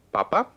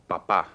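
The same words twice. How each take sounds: First: "papa" stressed on the first syllable, PA-pa; papa without accent. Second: "papá" stressed on the final syllable, pa-PÁ; papá with accent. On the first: Teacher modeling "papa" with stress on the first syllable. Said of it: "So one is papa, the first one". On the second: Teacher contrasting "papá" with final stress. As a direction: land the stress on the last "pá" of "papá". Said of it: "Segunda es papá". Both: Shown as a demonstration.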